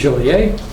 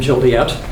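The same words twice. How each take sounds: First: The name is said with a French pronunciation. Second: The name is said with an American pronunciation.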